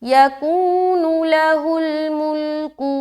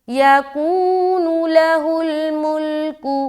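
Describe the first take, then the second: Both takes have the same delivery.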